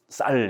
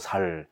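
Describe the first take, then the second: First: The initial s is tense and strong. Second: The initial s is plain and soft. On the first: The speaker calls it right. "쌀 이렇게 못하고" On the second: The speaker calls it wrong. "경상도 사람들이 의 발음을 잘 못하잖아요"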